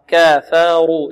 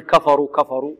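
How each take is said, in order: First: Slow, drawn-out word with a full, heavy R. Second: كفروا with the R thinned out, a mistake demo; quicker كفروا with an unrounded R; wrong light R. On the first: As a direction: recite it slowly with a thick R in كافروا. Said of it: "والراء مفخمة". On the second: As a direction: show the error of a light R in كفروا. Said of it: "لا نقول". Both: Shown as a demonstration.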